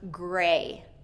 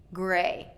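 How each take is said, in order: First: The final T sound is left off. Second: The same.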